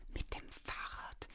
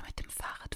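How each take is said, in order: First: Slow, whispered mocking echo; understated whispered scoff. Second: Said in the usual way. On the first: A narrator's reading. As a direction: repeat it slowly as a scornful question. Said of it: "wiederholte der Vater spöttisch". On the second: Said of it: "schlug die Mutter vor".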